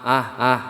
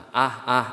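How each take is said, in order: No difference in how they are said.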